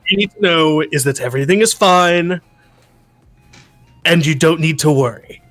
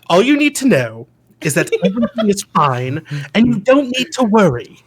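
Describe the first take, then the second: First: It is said in Cyrus' voice. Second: It is said in another character voice.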